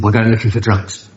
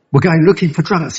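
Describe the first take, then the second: First: Said in the usual way. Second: Pitched-up disbelieving repeat; incredulous echo. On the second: Retold or imitated. Newcomer echoing his sponsor's odd plan, incredulous. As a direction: repeat it as if you can't believe it.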